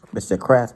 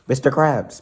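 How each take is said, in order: First: Louder, sharp call; sharp, insistent address; said sharply. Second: Raised, higher-pitched call; loud, high attention-getter. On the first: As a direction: say the name sharply to get attention. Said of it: "SpongeBob said sharply". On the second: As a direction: call out to snap him out of it. Trying to break his money trance. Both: A narrator's reading.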